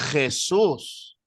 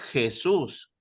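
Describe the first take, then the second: First: It is said with a harsh fricative J sound. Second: It is said with a soft Spanish J sound. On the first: "Algunos españoles hacen la J fricativa" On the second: "Nosotros decimos Jesús"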